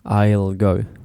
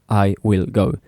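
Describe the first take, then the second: First: The words are joined into a short contraction. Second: Each word is said separately and fully. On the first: The speaker calls it right. "They say I'll" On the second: The speaker calls it wrong. "people don't say I will go to your house"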